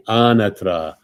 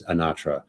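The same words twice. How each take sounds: First: Anatra louder, first syllable stressed, AH-na-tra; Italian pronunciation. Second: Anatra stressed on the middle syllable, uh-NAH-truh; old American pronunciation. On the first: Retold or imitated. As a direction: teach Anatra the Italian way for someone to repeat. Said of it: "Repeat after me". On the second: Shown as a demonstration. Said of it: "but in the past, I did say it as".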